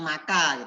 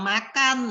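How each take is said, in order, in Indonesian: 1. Kata itu tidak berakhir dengan konsonan. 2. Kata itu berakhir dengan bunyi n.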